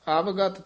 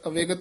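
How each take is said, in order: First: The second vowel is pronounced as short 'a'. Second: The second vowel is pronounced as 'e'. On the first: The speaker calls it right. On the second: The speaker calls it wrong. "ਅਵੇਗਤ ਨਹੀਂ ਕਹਿਣਾ ਹੈ"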